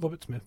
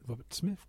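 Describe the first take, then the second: First: The name ends with a flat, falling tune. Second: The name ends with a questioning, rising tune. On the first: It is an ordinary statement of the name. The speaker calls it wrong. "Not Robert Smith" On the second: The name is voiced as a question. The speaker calls it right. "because there's a question mark at the end of his name"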